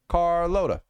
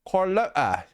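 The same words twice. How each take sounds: First: It is said in the speaker's usual accent. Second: It is said in a put-on British accent.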